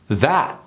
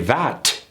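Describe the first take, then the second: First: The final T is dropped. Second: The final T is clearly released. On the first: The speaker calls it right. "Americans don't pronounce the T at the end" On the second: The speaker calls it wrong. "They don't say"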